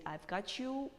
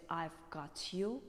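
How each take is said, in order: First: "got you" run together, higher pitched; "got you" as "gah-chu"; American blended T and Y. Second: Slow "got you" with a crisp T; "got you" as "got-yoo"; British released T. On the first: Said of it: "Americans prefer to say". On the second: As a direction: keep T and Y apart in "got you". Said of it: "while British say". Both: Shown as a demonstration.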